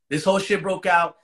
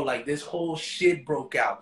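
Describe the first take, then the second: First: Said again, louder, for emphasis; louder repeat. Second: Said in the usual way. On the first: Real, not acted. Telling a friend how the fight broke out, louder. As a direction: hit the whole line harder on the repeat.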